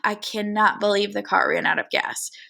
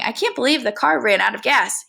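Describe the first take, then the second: First: It is said on a weary, breathy sigh. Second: It is said plainly, without a sigh. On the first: The speaker calls it right. "he would sigh" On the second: The speaker calls it wrong. "instead of saying"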